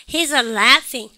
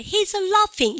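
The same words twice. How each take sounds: First: Slow American "laef-ing"; American pronunciation with front A; American accent. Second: High mock-British "LAHF-ing"; comic British accent with broad A; British impression. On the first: Shown as a demonstration. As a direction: demonstrate it drawn out in an American accent. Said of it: "미국 애들은 해보세요". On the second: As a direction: imitate a Brit, pitched up. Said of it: "영국 애들 웃을 때".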